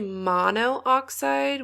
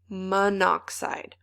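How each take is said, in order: First: Both o vowels are sounded: mono-oxide. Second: One o is dropped: mon-oxide. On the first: The speaker calls it wrong. "We don't say monoxide" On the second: The speaker calls it right. "we say monoxide"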